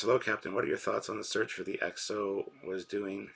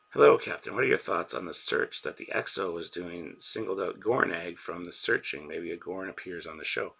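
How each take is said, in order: First: Said in the usual way. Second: Loud re-read. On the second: Shown as a demonstration. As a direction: belt the greeting out for the chat. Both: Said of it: "re-reads the chat message".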